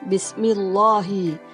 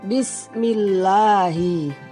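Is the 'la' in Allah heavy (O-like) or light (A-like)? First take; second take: heavy; light. First: The lam in Allah sounds heavy, like O. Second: The lam in Allah sounds light, like A. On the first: The speaker calls it wrong. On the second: The speaker calls it right. "tapi yang betul"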